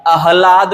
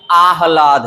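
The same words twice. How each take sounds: First: आह्लाद said as "a-hlaad"; short first vowel. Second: आह्लाद said as "aah-laad"; long first vowel. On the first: Teacher recapping the mistake, आह्लाद with short a. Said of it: "आह्लाद नहीं है". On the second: Teacher recapping, आह्लाद with long first aa. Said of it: "आह्लाद है". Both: Shown as a demonstration.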